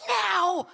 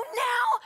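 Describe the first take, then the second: First: Loud, high, emphatic "Now"; insistent command on NOW. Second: High, loud, startled "Now?"; incredulous question on NOW. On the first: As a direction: order "Now" with full force. Friend insisting, retold. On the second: Disbelieving question back to friend. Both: Retold or imitated.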